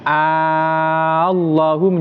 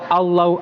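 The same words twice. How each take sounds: First: The first vowel is drawn out long. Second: The first vowel is said short. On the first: It asks whether God is the greatest. The speaker calls it wrong. "kalau dipanjangkan" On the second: It states that God is the greatest. The speaker calls it right. "kalam khobar"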